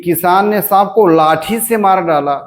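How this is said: The stress falls on the word लाठी.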